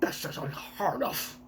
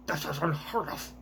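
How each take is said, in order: First: Breathy scandalized whisper; whispered dragon line. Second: A soft, scornful noble voice; celestial dragon voice. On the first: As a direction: hiss it out, appalled. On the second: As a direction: sniff at it like a spoiled aristocrat. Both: Acted. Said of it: "I give the worst voices to all of the, uh, celestial dragons".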